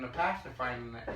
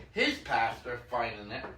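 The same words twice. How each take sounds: First: Said in the usual way. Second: His stressed with a rising tune, said slowly. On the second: Real, not acted. Correcting himself to the kid's own pastor, slow stress on his. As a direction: lean on the word his as a correction.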